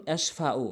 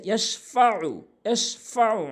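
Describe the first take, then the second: First: ইয়াশফাউ said with a plain a, no throat ayn; wrong form. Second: ইয়াশফাউ with the final ayn from the throat; correct form. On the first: Teacher showing the wrong pronunciation. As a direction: say ইয়াশফাউ with a plain vowel ending. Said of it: "ভুল উচ্চারণ". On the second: Teacher giving the correct pronunciation with throat ayn. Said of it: "সঠিক উচ্চারণ হচ্ছে". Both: Shown as a demonstration.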